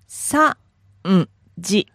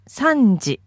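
First: It is said slowly. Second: It is said fast.

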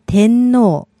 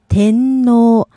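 The two takes are said the same way.

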